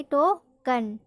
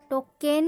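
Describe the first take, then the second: First: टोकन in two parts, ending in schwa "kun"; correct pronunciation. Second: टोकन misread as "to-ken" with a clear "e"; wrong pronunciation. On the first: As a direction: say टोकन as "to-kuhn". (टोकन का सही उच्चारण, अंत में "अ") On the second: (टोकन का ग़लत उच्चारण, "टोकेन" जैसा) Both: Shown as a demonstration. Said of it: "टोकन नहीं पढ़ेंगे".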